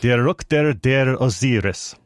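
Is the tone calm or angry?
calm. It is said calmly, without anger.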